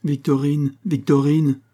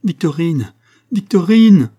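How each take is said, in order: First: Put-on raised, higher-pitched call for a missing child; searching call, pitched up. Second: High cry building to a loud shout; anguished shout, rising sharply in force; desperate cry. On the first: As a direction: call the name out, not yet desperate. Mother calls missing child in story. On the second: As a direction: call a lost child down a well, louder the second time. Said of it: "cria-t-elle". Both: A narrator's reading.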